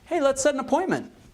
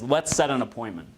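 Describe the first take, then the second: First: The voice rises at the end, sounding unsure. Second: The voice falls at the end, sounding commanding.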